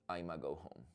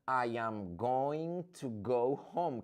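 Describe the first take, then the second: First: The start is squeezed into one short syllable. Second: Every word is said out separately and fully. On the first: "I don't like contractions. I don't like reductions" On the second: "What is that?"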